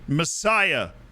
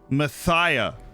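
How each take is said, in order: First: The word is said with a clear s sound. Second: The word is said with a lisped th sound. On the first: "As in Messiah" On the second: "Like you have a lisp"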